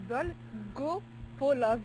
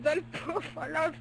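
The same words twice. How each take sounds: First: Each syllable of "Dolgopolov" spelled out very slowly and evenly; slow careful repeat. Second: Name shouted through a laugh, stretched out. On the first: Shown as a demonstration. Repeating the name for the puzzled co-host, very slowly. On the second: Real, not acted. Reading tennis results, bursts out laughing on the name. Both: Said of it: "Hein, comment?".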